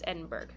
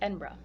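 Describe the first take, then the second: First: It is said with the American pronunciation. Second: It is said with the local pronunciation. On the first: The speaker calls it wrong. "it's Edinburgh in America. That's what we call it" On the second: The speaker calls it right. "But it's actually pronounced Edinburgh"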